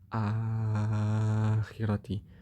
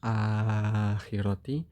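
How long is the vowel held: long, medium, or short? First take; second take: long; medium. First: The long vowel is held for six beats. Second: The long vowel is held for four beats. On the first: "Kalau tul ya lebih panjang lagi" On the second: "Jadi kalau tawasud gimana?"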